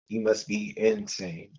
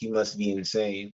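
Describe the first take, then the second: First: Insane is split, with emphasis on the in. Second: Insane flows together smoothly as one word.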